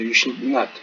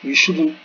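First: Not is a full word with stress. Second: Not is contracted onto should, unstressed. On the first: The speaker calls it right. "Not'ı özellikle vurgulamamız gerekiyor" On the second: The speaker calls it wrong. "You shouldn't değil"

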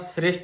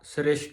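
First: The sound before the final 't' is 's'. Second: The sound before the final 't' is 'sh'. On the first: The speaker calls it right. "ਪੈਰ 'ਚ ਬਿੰਦੀ ਨਹੀਂ ਲਾਉਣੀ ਸੱਸੇ ਦੇ" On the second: The speaker calls it wrong. "ਸ੍ਰਿਸ਼ਟ ਨਹੀਂ ਕਹਿਣਾ"

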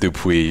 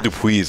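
First: The final S is silent. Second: The final S is sounded. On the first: The speaker calls it right. "I should have said Dupuis" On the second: The speaker calls it wrong. "I actually pronounced the S"

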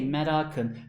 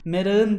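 First: The k is kept as a hard k. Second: The k is softened to a soft g. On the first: The speaker calls it right. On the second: The speaker calls it wrong.

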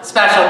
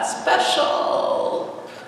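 First: It is said in a plain, sincere tone. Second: It is said in a weird, sarcastic tone.

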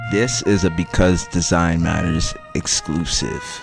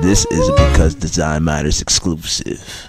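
First: It is said in his normal voice. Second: It is said in a put-on Bunker Voice.

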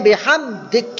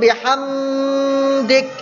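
First: The m is said clearly without a held hum. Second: The m is held with a nasal hum. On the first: The speaker calls it right. "Nyata ni" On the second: The speaker calls it wrong. "Kalau ringung"

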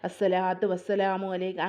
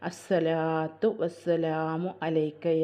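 First: The phrase is recited quickly and hurriedly. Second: The phrase is recited slowly and tenderly. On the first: The speaker calls it wrong. "അങ്ങനെയല്ല" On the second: The speaker calls it right. "ഇങ്ങനൊരു സാവധാനത്തിലായിട്ട് ആ സ്നേഹത്തോട് കൂടിയിട്ട്"

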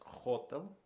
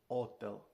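First: The word begins with an audible h sound. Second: The word begins directly with the vowel o. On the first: This is the English pronunciation. "Типу як хотел по-англійськи" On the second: This is the Italian pronunciation. "По-італійськи отел"

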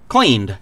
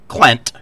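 First: The word ends with a long vowel and d. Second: The word ends with a short vowel and t. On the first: "the past tense of clean. Cleaned" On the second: "She pronounced it clent"

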